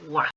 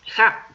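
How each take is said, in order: First: The particle begins with a w sound. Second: The particle begins with an h sound. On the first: The speaker calls it right. "se dice wa" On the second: The speaker calls it wrong. "no se dice ja"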